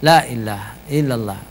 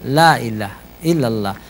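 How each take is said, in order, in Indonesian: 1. Bunyi h pada ilaha dihilangkan. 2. Bunyi h pada ilaha dihilangkan.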